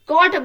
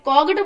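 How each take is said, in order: First: No g sound is pronounced before the t. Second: A g sound is pronounced before the t. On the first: The speaker calls it right. "कॉट बोलते हैं" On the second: The speaker calls it wrong. "कॉगट बोलते हैं नहीं ना"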